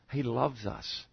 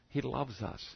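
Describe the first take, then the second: First: Soft repeated words. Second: Hushed echo. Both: Acted.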